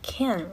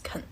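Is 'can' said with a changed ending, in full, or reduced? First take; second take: full; reduced. First: The word is said in full with a clear vowel. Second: The word is said weakly with a reduced vowel. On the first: "we're told to pronounce it like can" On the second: "And more often it becomes can"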